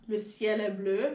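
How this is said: It is said in a Haitian French accent.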